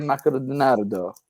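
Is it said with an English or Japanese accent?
Japanese. It is said with a Japanese accent.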